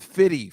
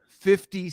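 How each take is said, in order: First: The f sound is dropped, giving 'fitty'. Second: The middle f and t sounds are both clear. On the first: The speaker calls it wrong. "He's not fitty for you" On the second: The speaker calls it right. "should always pronounce fifty cent"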